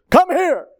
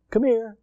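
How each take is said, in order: First: Higher and louder, sharp order; commanding shout of come here; barked command. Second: A mild friendly summons; gentle invitation. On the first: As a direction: snap it out like a drill order. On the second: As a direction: call them over kindly. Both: Shown as a demonstration. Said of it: "Or you can say".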